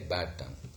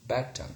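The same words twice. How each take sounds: First: The d at the end of bad is voiced. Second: The d at the end of bad is voiceless. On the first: "Instead of saying bad tongue" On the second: "in rapid speech, what do we say? ... this d sound is devoiced"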